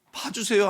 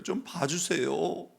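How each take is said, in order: First: "봐주세요" much higher and louder, breaking into a cry; crying out plea. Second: "좀 봐주세요" slow, higher, rising at the end; tearful plea. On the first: Mother's final desperate cry to God for her children, near-wailing. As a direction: wail "봐주세요" up high at full voice. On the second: Mother begging God to spare her children, slow tearful plea. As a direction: stretch "좀" into a slow pleading rise. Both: Retold or imitated. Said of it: "하면 운 거 아닙니까".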